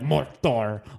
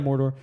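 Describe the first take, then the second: First: It is said slowly with heavy, dramatic enunciation. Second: It is said quickly and offhand, without emphasis. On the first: "In the first movie, they say like Mordor, like really like Mordor" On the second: "in the second and third one, they're just like, oh yeah, Mordor"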